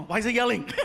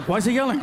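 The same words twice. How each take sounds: First: Laughing confusion. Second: Louder confused question. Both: Retold or imitated.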